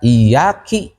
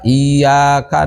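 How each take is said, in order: First: The word ends with the syllable ki. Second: The word ends with the syllable ka. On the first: The speaker calls it wrong. "kari-kari dibaca iyyaki" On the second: The speaker calls it right. "kuduna maca iyyaka"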